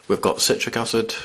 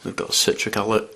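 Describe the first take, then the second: First: "acid" said clearly as "asid", with a crisp final d; careful retry. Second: "acid" slurred into "ali", the final d lost; fumbled words. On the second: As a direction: stumble over "citric acid", with "acid" coming out as "ali". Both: Real, not acted. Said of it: "I can't even talk properly".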